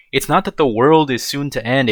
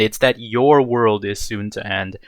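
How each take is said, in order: First: "not" leaned on, "the world" left unstressed; stress on not. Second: "your" picked out against "the", slowly; slow down and lean on "your"; stress on your. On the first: Answering people who predict the end, stress on "not". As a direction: put the weight on "not" to deny it. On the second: Correcting people who predict the end, stress on "your". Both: Real, not acted. Corrects doomsayers by contrasting two phrasings.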